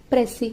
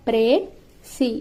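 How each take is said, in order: First: Said in the usual way. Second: "ప్రే సి" split by a clear pause, long ay in ప్రే; syllable-by-syllable pronunciation. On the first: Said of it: "అనే వర్డ్ని మనం ఎలా పలుకుతామంటే". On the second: Shown as a demonstration. Teacher showing how the word is pronounced, "ప్రే సి" in two separate syllables. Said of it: "మనం ఎలా పలుకుతామంటే".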